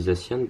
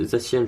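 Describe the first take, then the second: First: Zacian with a clear a-n ending, zah-syan; his own pronunciation. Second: Zacian with a nasal French ending, zah-syahn; others' pronunciation. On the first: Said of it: "mais moi je dis Zacian". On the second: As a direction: say Zacian the way many players do, nasal an at the end. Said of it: "je sais qu'il y en a beaucoup qui disent Zacian". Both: Shown as a demonstration.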